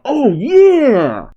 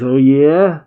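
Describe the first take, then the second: First: Yeah shouted much higher and louder, falling; crying out. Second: Said in the usual way. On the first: Acted. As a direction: whoop it out triumphantly. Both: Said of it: "Or I guess he's crying out".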